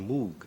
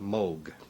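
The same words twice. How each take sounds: First: The name is pronounced the English way. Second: The name is pronounced the German way. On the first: "English-speaking countries, ... people see the double O and they say Moog" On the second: "in Germany, ... there it's pronounced Moog"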